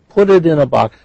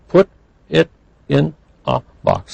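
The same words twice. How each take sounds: First: The words run together without any pauses. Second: The words are separated by small pauses. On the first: The speaker calls it right. "We don't pause" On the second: The speaker calls it wrong. "We don't say"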